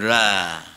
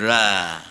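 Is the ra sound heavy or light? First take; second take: light; light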